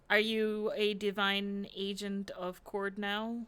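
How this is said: The question sounds genuinely curious and sincere. The asker sincerely wants to know the answer. The speaker calls it right. "I genuinely ask, like, curious"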